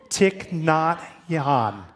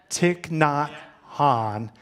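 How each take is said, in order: The two takes are said the same way.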